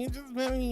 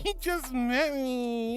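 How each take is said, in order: First: Said in the usual way. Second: Slow, laughing through "You just met me"; laughing protest. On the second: Real, not acted. Streamer teasing a viewer who called her good girl, laughing protest. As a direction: giggle it out, playfully scandalized.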